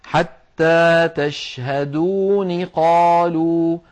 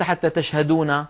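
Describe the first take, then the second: First: تشهدون قالوا slowly chanted, nun taking a short i; drawn-out recitation, kasra on the nun of تشهدون; joined with kasra. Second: تشهدون ending in -na, spoken briskly without chant; unchanted tash-haduna for تشهدون; wrong fatha ending. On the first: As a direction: link تشهدون into قالوا as tash-haduni qalu. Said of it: "ولو وصلناها نقول". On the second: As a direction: put an a after the nun of تشهدون. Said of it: "وليس". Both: Shown as a demonstration.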